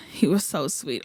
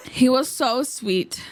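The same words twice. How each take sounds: First: Said in the usual way. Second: Whispered swoon. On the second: Real, not acted. Fan swoons over her idol to viewers, slow whisper. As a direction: breathe it out slowly in a whisper.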